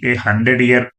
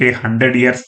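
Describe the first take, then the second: First: Said in the usual way. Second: "ఇయర్స్" with a final s sound; plural ending. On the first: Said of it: "A hundred ఇయర్స్ అని ఎందుకు లేదంటే". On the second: Shown as a demonstration. Teacher questioning why it is not plural, "ఇయర్స్" ending in s. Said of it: "అని ఎందుకు లేదంటే".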